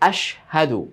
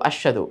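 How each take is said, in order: First: The h sound is clearly separate from sh. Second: The h sound blends away and is barely heard. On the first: The speaker calls it right. "সেই দুইটা হরফের ভিন্নতা যেন আলাদাভাবে স্পষ্টভাবে হয়" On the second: The speaker calls it wrong. "আশহাদু আশহাদু এরকম হয়ে যায় না"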